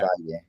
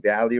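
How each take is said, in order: First: The surname is said in its original way. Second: The surname is said in an Americanized way. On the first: This is how the family name really goes. The speaker calls it right. "Better it's Valle" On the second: This is the easier version most people use. The speaker calls it wrong. "it's a lot easier for people to be Valley"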